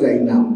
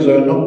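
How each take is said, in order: First: The name is said the Arabic way, ending 'nab'. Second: The name is said the Bengali way, 'Joynob'. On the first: This is the original form of the name. "আমাদের জাইনাব" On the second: This is the form used locally. "আমরা যেটাকে জয়নব বলি"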